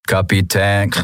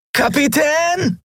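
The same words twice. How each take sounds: First: Leicht verfremdet, ruhig gesprochen: „Kapitän“; „Kapitän“ wie aus einem Apparat, ohne Nachdruck; Maschinenstimme. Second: „Kapitän!“ viel höher gerufen, langgezogen und fallend; so laut er kann. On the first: Schattenkaiser meldet sich ein letztes Mal. (der Schattenkaiser ruft „Kapitän“ mit Maschinenstimme) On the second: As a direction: verzweifelt durch den Wald rufen. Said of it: "rief er so laut er konnte". (Miko ruft im Regen nach dem Kapitän) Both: Acted.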